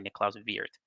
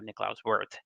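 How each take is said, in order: First: The name is pronounced the European way. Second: The name is pronounced the American way.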